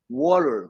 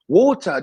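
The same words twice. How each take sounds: First: It is said in an American accent. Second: It is said in a British accent. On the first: The speaker calls it right. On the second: The speaker calls it wrong.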